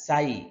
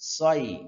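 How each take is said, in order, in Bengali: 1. s উচ্চারণ পাতলা ও সরু। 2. s উচ্চারণ মোটা ও ভারী। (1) "যদি এখানে সিন থাকতো তাহলে এরকম আমরা উচ্চারণ করতাম" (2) "যেহেতু সদ আছে মোটা করতে হবে"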